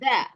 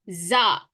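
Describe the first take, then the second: First: The consonant is a th sound, tongue out. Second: The consonant is a plain z sound. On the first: The speaker calls it right. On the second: The speaker calls it wrong. "Tak boleh za"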